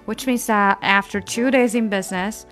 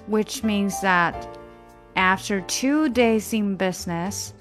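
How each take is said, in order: First: The phrase is read at a quicker pace. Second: The phrase is read at a moderate pace. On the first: "我们加快一些啊" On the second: "整句读"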